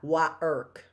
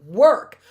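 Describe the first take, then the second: First: The sounds are said as separate pieces. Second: The sounds are blended into one smooth word. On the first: The speaker calls it wrong. "It's not wa irk" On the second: The speaker calls it right. "It's work is the word"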